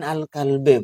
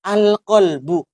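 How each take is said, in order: First: The word ends with an 'i' vowel. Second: The word ends with a 'u' vowel. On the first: The speaker calls it wrong. "Bukan al-qalbi" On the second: The speaker calls it right. "Kenapa harus dibaca rofa?"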